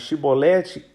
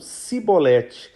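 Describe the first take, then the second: First: The word begins with a 'sh' sound. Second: The word begins with an 's' sound. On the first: The speaker is from Gilead, not Ephraim. "ao invés de pronunciarem chibolete" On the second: The speaker is an Ephraimite. "eles trocavam o som do C H pelo S"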